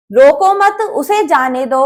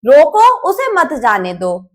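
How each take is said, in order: First: रोको मत as one firm phrase, then lower उसे जाने दो; group मत with रोको, then let उसे जाने दो drop; pause after मत. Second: रोको alone and firm, then lower उसे मत जाने दो; pause after रोको. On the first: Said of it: "पहले वाक्य में जाने वाले को". ('मत' पर वाक्यांश तोड़कर) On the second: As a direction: break after रोको, keep उसे मत जाने दो together, falling. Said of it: "दूसरे वाक्य में जाने वालों को". ('रोको' के बाद विराम) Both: Shown as a demonstration.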